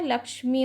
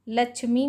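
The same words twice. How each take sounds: First: लक्ष्मी said as "lakshmi"; correct pronunciation. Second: लक्ष्मी said as "lachhmi"; wrong pronunciation. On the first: Teacher giving students the right form, लक्ष्मी as "lakshmi". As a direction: sound k then sh in लक्ष्मी. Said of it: "होता है". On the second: Teacher showing students the error, लक्ष्मी as "lachhmi". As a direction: use chh in place of ksh in लक्ष्मी. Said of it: "नहीं होता है". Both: Shown as a demonstration.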